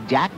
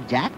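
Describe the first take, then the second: The two takes are said the same way.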